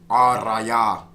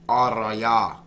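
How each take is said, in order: No difference in how they are said.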